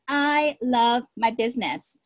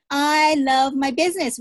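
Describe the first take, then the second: First: Said in the usual way. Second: I love my business said with loud conviction; louder declaration. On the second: Shown as a demonstration. Leading the team to chant it, louder and proud. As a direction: proclaim it louder like a rallying cry. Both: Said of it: "Say that with me".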